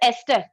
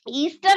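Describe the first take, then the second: First: The first vowel is a short 'e' sound. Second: The first vowel is a long 'ee' sound. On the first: The speaker calls it right. "This is एस्टर" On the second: The speaker calls it wrong. "ईस्टर नहीं बोलना"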